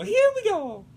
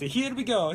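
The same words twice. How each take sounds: First: Very high cartoon Italian plumber; Mario. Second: Put-on catchphrase in ordinary-pitched Italian accent. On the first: Rallying stream viewers, high Mario voice. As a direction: squeal the catchphrase high, Italian accent. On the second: Starting off for live stream viewers, Italian accent. First, lower take of catchphrase.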